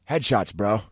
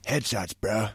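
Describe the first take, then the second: First: It is said in a plain natural voice. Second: It is said in a put-on cartoon voice. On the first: The speaker calls it right. "Just do your own voice" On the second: The speaker calls it wrong. "don't do that Cartman voice"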